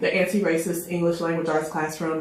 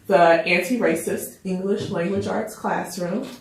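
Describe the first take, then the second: First: The title is said at normal speed. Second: The title is said more slowly.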